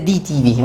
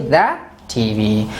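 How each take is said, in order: First: The word 'the' is said with a long 'ee' vowel. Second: The word 'the' is said with a short 'uh' vowel. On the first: The speaker calls it wrong. "We cannot say" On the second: The speaker calls it right. "we say"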